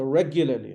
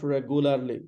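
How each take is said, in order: First: Regularly as REG-yuh-luh-lee; "regularly" stressed on the first syllable; correct regularly. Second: Regularly as reg-oo-LAR-lee; "regularly" with a full 'ar' syllable; mispronounced regularly. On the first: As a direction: say regularly with a y glide and weak endings. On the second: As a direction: say regularly wrongly, with goo and a sounded r. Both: Shown as a demonstration. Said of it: "not regularly".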